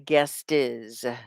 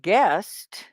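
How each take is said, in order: First: The word is said as two syllables. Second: The word is said as one syllable. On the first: The speaker calls it wrong. "You don't say guest is" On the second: The speaker calls it right. "you only say one syllable"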